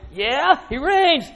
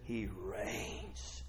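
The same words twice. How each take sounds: First: High, drawn-out "he reigns"; excited proclamation. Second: Very soft, low "he reigns"; hushed awe. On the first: Real, not acted. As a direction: lift it up with excitement. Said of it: "Get excited?". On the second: Acted. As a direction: drop to a near whisper. Hushed take before excited repeat.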